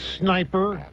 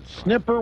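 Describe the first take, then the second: First: The first vowel is long, as in 'snipe'. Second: The first vowel is short, as in 'snip'. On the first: The speaker calls it right. "I know it's sniper" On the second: The speaker calls it wrong. "snipper was the way it was written in the story"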